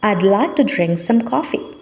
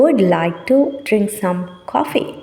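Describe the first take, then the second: First: The words are linked smoothly together. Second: Each word is said separately without linking. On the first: It sounds close to a native speaker. The speaker calls it right. "Native person பேசினா கிட்டத்தட்ட இது போல் இருக்கும்... words link பண்ணப்பட்டு இருக்குது" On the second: It sounds like a non-native speaker. The speaker calls it wrong. "இதுதான் நார்மலாக ஒருத்தர் சொல்கிற விதம். நேட்டிவ் இல்லாத ஒருத்தர்"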